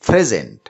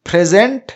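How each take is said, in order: First: The stress is on the first syllable. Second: The stress is on the second syllable. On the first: It means a gift. "এখানে present শব্দটির প্রথম সিলেবলটির উপরে stress বা চাপ দেওয়া হয়েছে" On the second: It means to give something formally. "এখানে present শব্দটিতে দ্বিতীয় সিলেবলটির উপরে চাপ দেওয়া হয়েছে"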